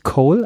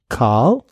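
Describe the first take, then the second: First: The vowel is a rounded 'oh' sound. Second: The vowel is an open back 'ah' sound. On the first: The speaker calls it wrong. "vorne ist nicht Coal, also es ist nicht Kohle" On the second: The speaker calls it right. "ein offenes, hinten liegendes A"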